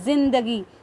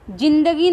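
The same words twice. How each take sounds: First: The word begins with a z sound. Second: The word begins with a j sound. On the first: The speaker calls it right. "इसके नीचे नुक्ता लगा है तो मैं इसे जिंदगी पढ़ूंगी" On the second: The speaker calls it wrong. "नहीं हम बोलेंगे"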